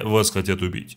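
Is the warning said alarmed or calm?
calm. The warning sounds flat and unbothered. The danger is treated as trivial. The speaker calls it wrong. "Она такая"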